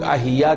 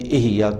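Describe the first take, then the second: First: The first vowel is an 'a' sound. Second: The first vowel is an 'i' sound. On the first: The speaker calls it wrong. "लोग अहिया कहते हैं" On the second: The speaker calls it right. "खामखा ज़ेर के बजाय ज़बर लगा देते हैं"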